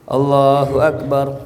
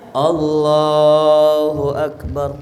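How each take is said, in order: First: The phrase is said short and ends quickly. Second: The phrase is stretched somewhat, less than before. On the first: It finishes before the bowing position is reached. "Belum nyampe ruku udah selesai" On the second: This is still recommended but less complete. "Yang di bawahnya ya sunnah, cuman tidak sesempurna yang tadi"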